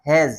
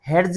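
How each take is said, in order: First: The d is silent in the word. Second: A d sound is pronounced in the word. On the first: The speaker calls it right. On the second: The speaker calls it wrong. "ये हेड्स नहीं पढ़ा जाएगा"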